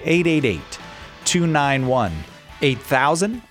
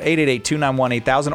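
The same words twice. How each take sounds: First: The number is said at a slower pace. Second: The number is said at a quicker pace.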